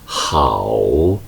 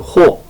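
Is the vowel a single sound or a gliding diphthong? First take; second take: diphthong; single vowel. First: It glides from a to o, hao. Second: It is said as one plain vowel, ho. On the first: This is the Chinese reading of the character. The speaker calls it right. "하오 이렇게 읽어야 합니다" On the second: This is the Korean reading of the character. The speaker calls it wrong. "좋을 호자를 호 하지 않고"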